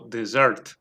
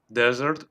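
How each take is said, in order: First: The stress is on the last syllable. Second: The stress is on the first syllable.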